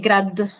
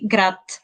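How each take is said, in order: First: The final consonant is voiced. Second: The final consonant is voiceless. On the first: The speaker calls it wrong. "I cannot say grad" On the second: The speaker calls it right. "I will say grat"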